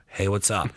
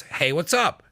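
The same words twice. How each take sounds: First: Lower, colder, flat hello; curt greeting. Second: Light, rising friendly hello; cheery casual check-in; friendly greeting. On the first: Texting a friend, read as a cold, curt hello. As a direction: say it like you're annoyed. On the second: Texting a friend, read as a cheerful hello. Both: Shown as a demonstration. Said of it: "You could be reading it as".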